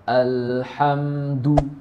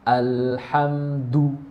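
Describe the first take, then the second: No difference in how they are said.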